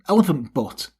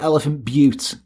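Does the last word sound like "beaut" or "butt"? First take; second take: butt; beaut. First: The last word rhymes with "cut". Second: The last word rhymes with "cute". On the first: The speaker calls it right. "So you don't say Butte, because it's got an E on it. It's Elephant Butt" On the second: The speaker calls it wrong. "for the purpose of Americans going, oh, how dare you say that about a country? Moaning at me, I'll say Elephant Butte. But it's not"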